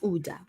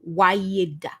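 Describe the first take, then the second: First: The name begins with an 'oo' sound. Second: The name begins with a 'why' sound. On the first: The speaker calls it right. "But no, it's Uda" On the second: The speaker calls it wrong. "If I was reading that with an English mind"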